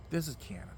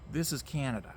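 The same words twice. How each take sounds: First: Whisper. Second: Said in the usual way. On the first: Shown as a demonstration. Dramatic repeat, then whispered.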